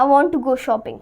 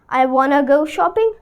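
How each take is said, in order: First: 'Want to' is said as two full words. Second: 'Want to' is shortened to 'wanna'.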